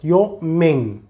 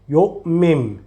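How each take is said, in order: First: The word ends with an n sound. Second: The word ends with an m sound. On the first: The speaker calls it wrong. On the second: The speaker calls it right. "Don't say the noon, say the mim"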